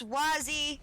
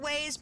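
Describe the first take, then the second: First: The name is said as two syllables. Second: The name is said as one syllable. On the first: This is the speaker's own older name for it. The speaker calls it right. "but it's Wazzy!" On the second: This is how most people say it. The speaker calls it wrong. "most people pronounce it Waze"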